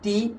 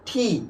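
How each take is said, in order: First: The t is unaspirated. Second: The t is strongly aspirated. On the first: The speaker calls it wrong. "উচ্চারণ করছি কি" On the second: The speaker calls it right. "উচ্চারণ হয়েছে কি বলতো ঠি"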